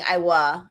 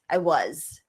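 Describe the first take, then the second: First: The final z sound of was is dropped. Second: The final z sound of was is pronounced. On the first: The speaker calls it wrong. "you might hear like saying I wa instead of I was" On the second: The speaker calls it right. "which in American English you'll hear the z sound"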